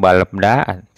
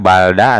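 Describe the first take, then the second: First: Both l and b sounds close the first syllable. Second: Only an l sound closes the first syllable. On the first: "atau balebda, tidak" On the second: "Tidak balda"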